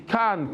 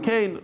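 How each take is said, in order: First: "Kan" said with a short flat a, like "con"; "Kan" with a plain short vowel; pronounced Kan. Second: "Kain" said with a long ay sound, higher; "Kain" rhyming with rain; pronounced Kain. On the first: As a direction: say "Kan" as the emailer wants it. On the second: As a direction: say "Kain" the yeshiva way. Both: Retold or imitated. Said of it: "why do you say Kan".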